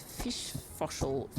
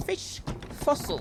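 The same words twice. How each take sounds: First: Said in the usual way. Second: Fish fossil said slowly, the f and the s kept apart; slow down and untangle fish fossil; careful retry. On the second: Real, not acted. Streamer fighting a tongue twister, saying fish fossil slowly. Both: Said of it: "that's actually quite difficult to say".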